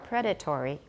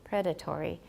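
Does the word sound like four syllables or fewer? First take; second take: four; four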